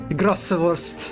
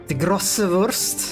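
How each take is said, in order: No difference in how they are said.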